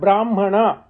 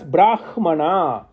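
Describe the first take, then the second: First: The h before m is changed, ordinary Sanskrit style. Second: The h before m is kept, Vedic style. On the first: This is the everyday Sanskrit pronunciation. "in normal uh, pronunciation in Sanskrit, it will be called Brahmana because Hakara becomes Makara" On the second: This is the pronunciation used for the Vedic term. "in Vedic text, it should be pronounced as Brahmana"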